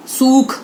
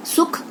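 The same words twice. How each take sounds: First: सूख loud with a long OO; long vowel. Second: सुख with a quick short U; short vowel. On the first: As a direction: stretch the OO in सूख. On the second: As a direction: keep the U in सुख brief. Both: Shown as a demonstration. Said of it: "उच्चारण पर ध्यान दीजिए".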